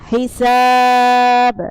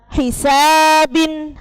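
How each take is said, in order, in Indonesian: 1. Katanya berakhir mendadak di konsonan b. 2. Katanya berakhir dengan vokal dan n.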